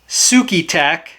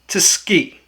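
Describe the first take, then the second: First: The name is said with an American pronunciation. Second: The name is said with a Japanese pronunciation. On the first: "I think most Americans would pronounce it Sukitac" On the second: "Google says it's pronounced Tsuki"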